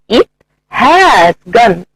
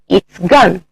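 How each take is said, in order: First: The word has is said in full. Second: The word has is reduced to a contraction. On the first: "The strong form" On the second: "the weak form"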